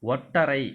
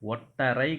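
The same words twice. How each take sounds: The two takes are said the same way.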